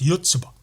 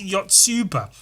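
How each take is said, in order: First: The name is said with a Japanese-style pronunciation. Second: The name is said with an English-style pronunciation. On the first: The speaker calls it right. "I think it's actually pronounced Yotsuba" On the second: The speaker calls it wrong. "This is Yotsuba"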